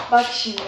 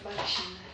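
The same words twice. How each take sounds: First: Said in the usual way. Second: "Bak şimdi" much softer and lower, under the breath; quiet mutter. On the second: Real, not acted. Streamer muttering to herself over the gift, quiet. Streamer repeats while working.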